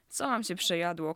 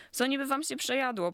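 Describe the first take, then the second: First: Understated irritation, still contained; just beginning to get worked up; starting to flare. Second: Higher-pitched, rising indignation; getting worked up. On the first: Kamila questions Badyl's excuse, mildly irritated. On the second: Kamila challenges the excuse a second time, indignant and higher. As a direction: repeat the question with mounting irritation. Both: A narrator's reading. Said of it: "Kamila zaczynała się unosić".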